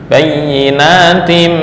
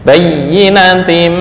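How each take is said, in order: First: The vowel in 'na' is held long. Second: The vowel in 'na' is kept short. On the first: The word is plural. "kalau harokatnya berdiri" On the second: The word is singular. "bayyinatim pendek"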